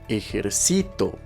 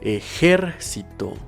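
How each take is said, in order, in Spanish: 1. La sílaba tónica es la penúltima. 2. La sílaba tónica es la antepenúltima. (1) "si se encuentra en la penúltima sílaba, sonará de la siguiente forma" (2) "si se encuentra en la antepenúltima sílaba, sonará de la siguiente forma"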